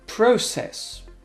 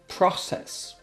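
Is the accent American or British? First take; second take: British; American. First: It is said with a British accent. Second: It is said with an American accent.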